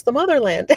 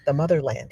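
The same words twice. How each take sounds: First: Higher-pitched, mock amazed echo; astonished echo. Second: Said in the usual way. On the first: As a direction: echo it back high, re-enacting his amazement. He echoes her realization.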